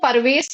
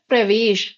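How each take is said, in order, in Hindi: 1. p और r के बीच एक छोटा स्वर आता है। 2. p और r मिलकर एक संयुक्त ध्वनि-समूह बनाते हैं। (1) "वो परवेश नहीं है" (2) "उच्चारण क्या होता है, प्रवेश"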